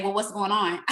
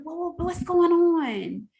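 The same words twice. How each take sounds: First: Said in the usual way. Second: Mock nosy question. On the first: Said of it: "sit and say". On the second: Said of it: "the first thing".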